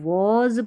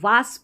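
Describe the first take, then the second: First: It has a rounded o vowel and final z. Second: It has an open aa vowel and final s. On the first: The speaker calls it right. "इसको वॉज पढ़ना है" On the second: The speaker calls it wrong. "वास पढ़ देते हैं ... जो बिल्कुल गलत है"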